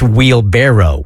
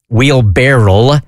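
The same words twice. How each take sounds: First: The ending sounds like barrow. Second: The ending sounds like barrel. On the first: The speaker calls it right. "and it's wheelbarrow" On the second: The speaker calls it wrong. "I thought it was wheelbarrow"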